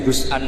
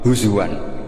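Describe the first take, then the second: First: A glottal stop sits in the middle. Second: A w sound sits in the middle. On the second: "ditakhul jadi wawu"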